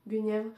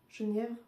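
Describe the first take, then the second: First: The name starts with a hard G sound. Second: The name starts with a soft J sound. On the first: "moi je le lis Guenièvre" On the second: "ça s'écrit Genièvre"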